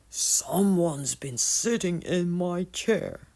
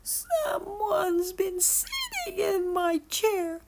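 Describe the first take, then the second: First: It is growled in papa bear's voice. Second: It is cried in baby bear's voice.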